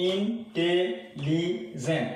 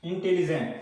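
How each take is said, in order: First: "intelligent" very slow, a pause after each syllable. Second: Said in the usual way. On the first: Shown as a demonstration. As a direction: count out "intelligent" in four separate beats. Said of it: "আমি কয়বার উচ্চারণ করলাম এটাকে". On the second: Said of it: "আমি কয়বার উচ্চারণ করলাম".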